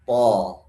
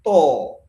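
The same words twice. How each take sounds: First: TO heavy, open as aw, not rounded; thick fathah. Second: TO with a pure rounded o; rounded O vowel. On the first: Teacher showing fathah mouth shape, thick open TO. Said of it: "mimik bibirnya ketika fathah sama bukaannya". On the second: Teacher showing the changed sound, rounded TO. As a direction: round the lips tightly on TO. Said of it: "Kalau dirubah menjadi o". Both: Shown as a demonstration.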